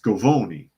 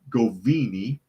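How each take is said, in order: First: The middle vowel sounds like 'oh'. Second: The middle vowel sounds like 'ee'. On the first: The speaker calls it right. "It's Govoni" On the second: The speaker calls it wrong. "I pronounced it wrong"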